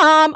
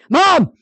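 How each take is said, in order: First: The call sounds calm and casual. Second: The call sounds frustrated and needy. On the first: The child has just arrived home. "which that one means I'm home" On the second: The child needs help. "that's the frustrated and I need help"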